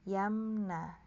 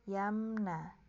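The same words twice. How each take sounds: No difference in how they are said.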